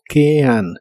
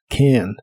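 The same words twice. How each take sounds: First: It is said slowly with two separate vowel sounds. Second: It is said quickly with the vowel sounds merged. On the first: "Si lo pronuncias muy lento" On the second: "esos dos sonidos vocales se unen cuando hablas más rápido"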